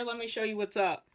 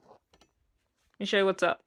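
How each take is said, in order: First: Said in the usual way. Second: Slow, put-on goofy voice; drawn-out silly voice. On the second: Shown as a demonstration. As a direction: stretch it out in a goofy voice. Repeats the line slowly in a put-on voice.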